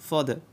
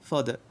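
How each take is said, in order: No difference in how they are said.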